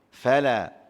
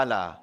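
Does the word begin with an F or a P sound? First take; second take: F; P. First: The word begins with an F sound. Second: The word begins with a P sound. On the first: The speaker calls it right. "Tak ni F" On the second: The speaker calls it wrong. "dia bunyi pala. Nampak? Dia bunyi P"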